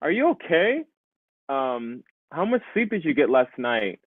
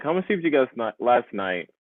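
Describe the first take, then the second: First: "Are you okay?" with a strong rise, "how much sleep did you get last night?" asked as a question; clear question intonation. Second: "How much sleep did you get last night?" rushed out fast and falling, like a statement; flat statement tune. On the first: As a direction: model a clear questioning tune, rising on "okay". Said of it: "it's really clear that you're asking a question". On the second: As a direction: say the question fast with a falling end, no rise. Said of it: "instead of like". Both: Shown as a demonstration.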